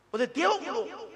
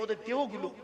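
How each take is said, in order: First: "ওদের দেহগুলো" said higher and louder, dwelling on দেহগুলো; emphatic repeat. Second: Said in the usual way. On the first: Shown as a demonstration. Preacher repeating to the crowd, raised emphatic "দেহগুলো". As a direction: lift the phrase up for emphasis.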